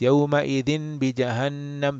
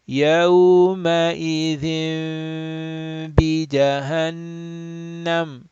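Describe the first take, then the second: First: The n before b is said plainly, without nasal hold. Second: The n becomes a nasal m held two counts. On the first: The speaker calls it wrong. "they will just read like this" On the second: The speaker calls it right. "Two harakat, nasal sound"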